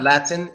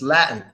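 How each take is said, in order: First: The T sound is clearly pronounced. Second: The T sound is silent. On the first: The speaker calls it wrong. "that's not" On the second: The speaker calls it right.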